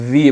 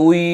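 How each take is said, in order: First: The lower lip touches the upper teeth. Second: The lips are rounded without touching the teeth. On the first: The speaker calls it wrong. "নিচের ঠোঁটের পেট উপরের দাঁতের আগার সাথে লাগাইয়া ... এই উচ্চারণটি সঠিক নয়" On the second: The speaker calls it right. "ঠোঁটকে গোল করেই উচ্চারণ করতে হবে"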